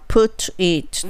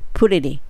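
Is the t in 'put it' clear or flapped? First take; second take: clear; flapped. First: The t is a clear, separate t sound. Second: The t sounds like a quick l sound. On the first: The speaker calls it wrong. "そのままにするとちょっと言いにくい" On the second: The speaker calls it right. "put のt がまずはl に化けて"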